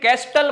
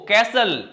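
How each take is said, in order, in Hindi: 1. बीच में t की आवाज़ बोली जाती है। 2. बीच में t की आवाज़ साइलेंट है। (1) "मत बोलना इसको" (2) "टी हो जाएगा साइलेंट"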